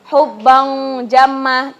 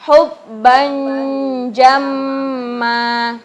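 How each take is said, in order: First: The n sounds like a back ng sound. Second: The n is softened and blended toward the j. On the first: The speaker calls it wrong. "bukan ini cara bacanya bukan seperti qaf" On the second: The speaker calls it right. "cara menyamarkannya karena huruf selanjutnya jim"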